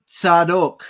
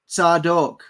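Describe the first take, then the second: Both takes have the same delivery.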